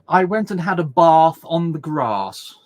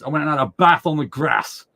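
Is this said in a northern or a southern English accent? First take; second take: southern; northern. First: It is said in a southern English accent. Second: It is said in a northern English accent. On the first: "down south, it's all" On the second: "Up north"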